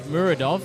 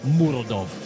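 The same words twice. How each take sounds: First: It is said in an Australian accent. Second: It is said in a Russian accent. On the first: The fighter sounds like a friendly mate. "you can't say it like an Australian" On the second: The fighter sounds dangerous. "okay, brother, listen"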